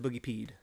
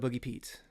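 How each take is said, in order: First: The word ends with a 'd' sound. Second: The word ends with a 't' sound. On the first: The speaker calls it right. "It's a boogie peed" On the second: The speaker calls it wrong. "not a boogie Pete"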